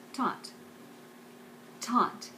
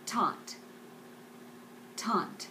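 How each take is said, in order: Both takes have the same delivery.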